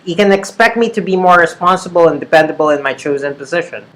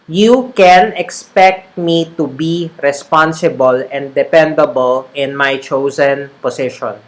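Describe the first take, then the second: First: It is read quickly in an American accent. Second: It is read slowly in a Filipino English accent. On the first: The speaker is used to saying these words. "That's how Americans say it" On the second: The speaker is not yet used to these words. "That's kind of like the tag, the Taglish uh, the Taglish pronunciation"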